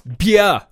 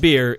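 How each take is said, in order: First: The word is pronounced the German way. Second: The word is pronounced the English way. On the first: The speaker calls it right. "It's Bier" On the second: The speaker calls it wrong. "It's not beer"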